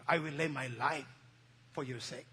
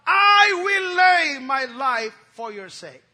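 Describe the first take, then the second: First: Low, soft, fading pledge; quiet vow. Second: Slow, loud, shouted vow; Peter's vow. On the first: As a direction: drop it to a hushed promise. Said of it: "Peter said". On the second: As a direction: roar it out as a bold promise. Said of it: "Peter said unto him". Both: Acted.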